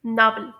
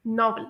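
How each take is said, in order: First: नावल with an open ah vowel; American pronunciation. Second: नॉवल with a short rounded o; British pronunciation. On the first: Teacher showing learners the vowel, American pronunciation of नावल. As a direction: say "नावल" American style, like "nahvel". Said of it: "American pronunciation में से pronounce किया जाता". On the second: Teacher showing learners the short o, British pronunciation of नॉवल. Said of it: "British English में short ओ की sound". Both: Shown as a demonstration.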